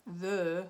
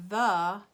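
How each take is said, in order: First: "the" with lips pushed forward; rounded vowel. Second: "the" with a plain, slack-lipped schwa; unrounded vowel. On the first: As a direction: say "the" with a French-style rounded schwa. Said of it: "my lips are much more engaged". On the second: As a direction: say "the" loudly with the lips left loose. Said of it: "my lips are completely unengaged". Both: Shown as a demonstration.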